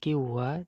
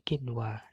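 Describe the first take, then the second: First: The n sound is dropped before the w. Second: The n sound is pronounced clearly before the w. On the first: The speaker calls it wrong. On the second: The speaker calls it right. "tapi kinwa"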